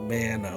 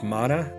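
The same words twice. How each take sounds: First: The first vowel sounds like in 'man'. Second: The first vowel is not like in 'man'. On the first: This is the speaker's own self-taught way of saying it. "like as in a man" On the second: This is how most other people say it. "everybody else in the world says mana"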